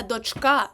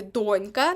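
First: «дочка» slowly as doch-KA; stress on last syllable. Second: «донька» as DON-ka; stress on first syllable. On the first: Teacher showing дочка, last-syllable stress. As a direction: punch and stretch КА in «дочка». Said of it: "наголос на останньому складі". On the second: Teacher showing донька, first-syllable stress. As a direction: hit ДОНЬ in «донька». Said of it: "наголос на першому складі". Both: Shown as a demonstration.

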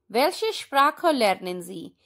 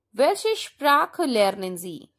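The two takes are said the same way.

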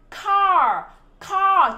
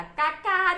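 First: "car" with aspirated k and curled r; loud, higher "car", puff of air then r; English car. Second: "K K" said "ca ca", no puff of air; wrong take, "K K" as unaspirated "ca" without r; Vietnamese ca. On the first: Teacher models the rule for pupils, loud "car" with English r. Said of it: "thì phải phát âm là". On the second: Teacher mimics pupils' mistake, "K K" as Vietnamese "ca". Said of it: "chứ không phải là K K đâu". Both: Shown as a demonstration.

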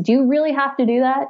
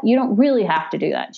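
First: Higher, fast pleading question. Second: Said in the usual way. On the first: Retold or imitated. A patient in labor asks the nurse to skip the IV, pleading. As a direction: beg the nurse not to put in an IV.

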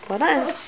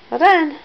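First: Said in the usual way. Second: Higher and louder, insisting; louder firm repeat. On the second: Real, not acted.

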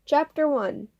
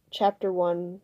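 First: "Chapter one" raised high, falling at the end like a heading; announced chapter title. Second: Said in the usual way. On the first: Shown as a demonstration. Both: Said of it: "Chapter one, Ask Away".

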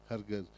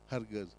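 No difference in how they are said.

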